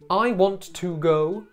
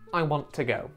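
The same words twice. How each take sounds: First: The word 'to' has a full vowel. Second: The word 'to' is reduced to a bare 't'.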